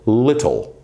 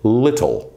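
First: The middle T is a clear, crisp t sound. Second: The middle T is a clear, crisp t sound.

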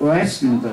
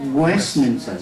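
First: The opening w sound is missing or weak. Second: The opening w sound is clearly pronounced. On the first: The speaker calls it wrong. "Nó không phải là Westminster" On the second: The speaker calls it right. "nó là Westminster. Nó có cái vùng word"

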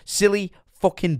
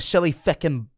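First: It is said in a Scottish accent. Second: It is said in an Irish accent. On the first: The speaker calls it right. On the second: The speaker calls it wrong.

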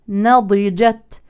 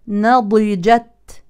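The two takes are said the same way.

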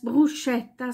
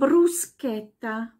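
First: The middle consonant is pronounced like 'sh'. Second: The middle consonant is pronounced like 'sk'. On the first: The speaker calls it wrong. "Das wird so oft auch falsch ausgesprochen als Bruschetta" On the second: The speaker calls it right. "sondern Bruschetta"

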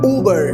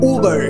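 First: The word begins with an 'oo' sound. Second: The word begins with an 'oo' sound.

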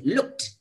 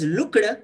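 First: The ending is said as a t sound. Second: The ending is not said as a t sound. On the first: The speaker calls it right. "past tense maker D or ED is pronounced as T" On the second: The speaker calls it wrong. "is not pronounced as looked"

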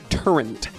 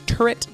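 First: The word is said with an added n sound. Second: The word is said without an n sound. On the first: "They say turret. They add an N" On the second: "instead of saying turret, like T-U-R-R-E-T"

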